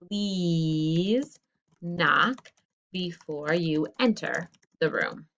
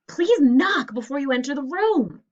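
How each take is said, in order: First: It is said in a calm, normal voice. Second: It is said loudly, as a yell.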